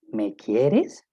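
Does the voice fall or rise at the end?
rise. The voice rises at the end, as a question. It asks whether the listener loves the speaker.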